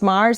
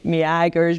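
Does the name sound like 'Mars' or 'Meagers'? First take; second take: Mars; Meagers. First: The name sounds like the word Mars. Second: The name has a hard g sound. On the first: The speaker calls it right. "it's Mars, like in the, as in the chocolate bar" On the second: The speaker calls it wrong. "nobody could pronounce it"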